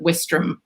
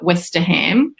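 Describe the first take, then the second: First: The middle syllable is dropped. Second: The middle syllable is pronounced in full. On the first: "the Brits pronounce it Westram, so losing a few letters" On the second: "which is how I would have said it"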